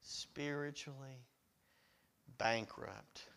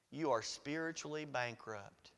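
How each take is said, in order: First: Soft, low "Spiritually", long pause, "bankrupt"; word-by-word emphasis. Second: Said in the usual way. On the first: Real, not acted. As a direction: set "Spiritually" and "bankrupt" apart with a heavy pause. Point repeated word by word.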